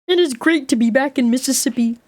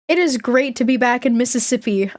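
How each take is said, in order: First: It is said in an imitated Kermit voice. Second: It is said in the speaker's natural voice.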